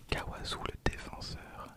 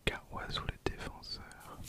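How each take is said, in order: Both takes have the same delivery.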